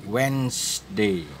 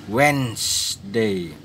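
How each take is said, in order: No difference in how they are said.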